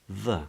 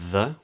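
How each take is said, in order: First: It is said with a weak schwa. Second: It is said with a full vowel. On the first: "is often pronounced as the" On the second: "a word like the"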